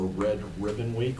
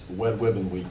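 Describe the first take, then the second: First: Red is said with an ordinary R sound. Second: Red is said in a childlike way, like Wed.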